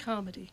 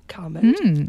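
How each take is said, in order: First: The name is said in a plain, ordinary way. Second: The name is said in a fancy, posh way. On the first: The speaker calls it right. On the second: The speaker calls it wrong.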